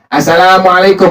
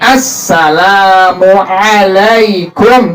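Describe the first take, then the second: First: Some required Arabic sounds are reduced or replaced. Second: The doubled s, long l and ain are full. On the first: The speaker calls it wrong. "Nggak boleh tuh" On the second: The speaker calls it right. "minimal tuh"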